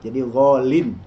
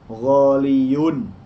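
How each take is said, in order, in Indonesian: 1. Kata ini berakhir dengan bunyi 'in' yang pendek. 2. Kata ini berakhir dengan suku kata 'yun' yang utuh. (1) "Huruf ya yang dihilangkannya diganti dengan tanwin" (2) "tidak boleh mengatakan ghaliyun"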